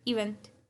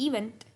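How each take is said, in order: No difference in how they are said.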